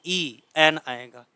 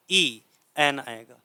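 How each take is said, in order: Both takes have the same delivery.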